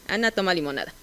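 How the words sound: The pitch peak falls after the stressed syllable. It is a neutral statement of the whole fact. "una declarativa de foco amplio"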